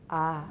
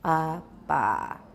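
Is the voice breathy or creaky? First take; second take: breathy; creaky. First: The stop release is followed by breathy murmur. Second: The stop is produced with creaky, laryngealized voice. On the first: "adding breathy voice to stops" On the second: "stops with creaky voice"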